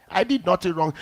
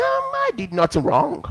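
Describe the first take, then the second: First: Said in the usual way. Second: Much higher, mocking put-on voice; high mock voice of a smug wrongdoer; smug denial. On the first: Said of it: "What will you do?". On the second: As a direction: mimic the arrogant one playing innocent. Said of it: "They'll say".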